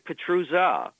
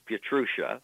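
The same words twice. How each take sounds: First: The z sound is a hard z. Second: The z sound is soft, not a hard z. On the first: This is the family's own pronunciation. "she was given a sort of hard Z" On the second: This is the usual pronunciation in this country. "the standard pronunciation in this country"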